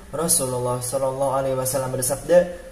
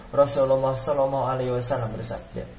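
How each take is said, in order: Both takes have the same delivery.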